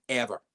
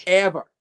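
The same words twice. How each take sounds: First: Said in the usual way. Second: Ever hit much louder, higher, falling hard; emphatic ever. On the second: Retold or imitated. Warning the promoter, one loud falling Ever. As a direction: slam the single word Ever.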